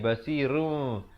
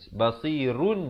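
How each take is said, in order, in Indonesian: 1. Kata ini berakhir dengan bunyi m yang ringan. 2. Kata ini berakhir dengan bunyi n. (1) "ditukarkan kepada bunyi mim" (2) "Bunyi nun"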